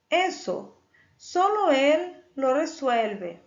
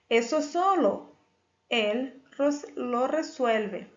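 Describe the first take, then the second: First: The pause comes right after the first word. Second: The pause comes right after the second word. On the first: Only he can solve that. "Depois do eso, eu coloquei uma vírgula" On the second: He solves only that. "eu tenho uma outra possibilidade que eu coloquei"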